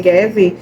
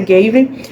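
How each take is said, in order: First: The name is pronounced with Portuguese sounds. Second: The name is pronounced with English sounds. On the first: The speaker calls it wrong. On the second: The speaker calls it right.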